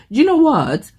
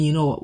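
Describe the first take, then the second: First: High, loud English accent imitating a YouTuber; English accent impression. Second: Said in the usual way. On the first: Quoting the YouTuber she watches, in an English accent. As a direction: mimic her English accent, pitched up. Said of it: "And she always says". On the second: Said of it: "I think of saying".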